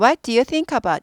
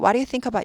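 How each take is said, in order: First: Each word is said separately and fully. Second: The words are said quickly and run together. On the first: The speaker calls it wrong. "이렇게 안 해요" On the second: The speaker calls it right. "많이 빨리 읽다 보면 What do you think about 이렇게 됩니다"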